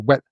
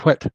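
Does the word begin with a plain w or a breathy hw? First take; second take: plain w; breathy hw. First: It begins with a plain voiced w sound. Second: It begins with a breathy voiceless hw sound. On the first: The old distinction has been lost. "you're actually quite likely to hear" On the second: The old distinction is kept. "as opposed to"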